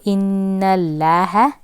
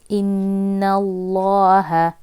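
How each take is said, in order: First: The L sound is light and thin. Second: The L sound is heavy and full. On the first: The speaker calls it wrong. "inna Allah is wrong" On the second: The speaker calls it right. "Obviously it's going to be heavy"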